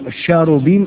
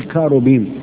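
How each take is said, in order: First: The word begins with a sh-like sound. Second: The word begins with a k sound. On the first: "سي اتش في الانجليزي ممكن تتنطق تشا زي تشاش" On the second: "وممكن سي اتش تتنطق ايه؟ كاف"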